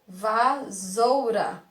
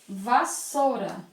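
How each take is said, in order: First: The middle consonant is a buzzing Z sound. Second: The middle consonant is a hissing S sound. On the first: The speaker calls it wrong. "Primeiro que estaria incorreto e teria o som de" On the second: The speaker calls it right. "É o som de S, tem um som forte porque ele está dobrado"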